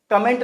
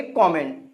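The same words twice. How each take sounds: First: कमेंट said kuh-MENT, short neutral first vowel; wrong pronunciation. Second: कमेंट said KAW-ment, open first vowel; correct pronunciation. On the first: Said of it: "यहाँ पे कमेंट नहीं". (कमेंट को छोटे "क" से "कमेंट" बोलें) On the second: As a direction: say कमेंट with a clear "aw" after the K. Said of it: "क्या बोलेंगे?". (कमेंट को "कॉमेंट" बोलें) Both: Shown as a demonstration.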